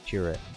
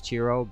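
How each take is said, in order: First: The name ends in an 'ah' vowel sound. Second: The name ends in an 'oh' vowel sound. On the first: The speaker calls it wrong. "I'm I'm pronouncing that wrong" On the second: The speaker calls it right. "I think it's pronounced Chiro"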